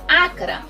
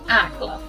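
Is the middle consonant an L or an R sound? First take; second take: R; L. First: The middle consonant is an R sound. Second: The middle consonant is an L sound.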